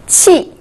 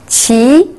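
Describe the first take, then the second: First: The pitch falls sharply from high. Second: The pitch rises from mid to high.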